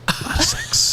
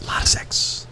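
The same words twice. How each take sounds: First: High breathy repeat of a lot of sex; a lot of sex squeaked high and soft; high whisper. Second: Whisper. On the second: Repeated line whispered. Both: Pretend.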